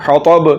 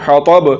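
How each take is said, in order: The two takes are said the same way.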